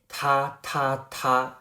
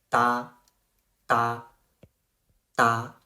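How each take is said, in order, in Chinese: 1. 这个音节开头是带气的送气t。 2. 这个音节开头是轻柔的、类似d的音。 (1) "你肯定会读成他他他" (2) "这个读成哒哒哒"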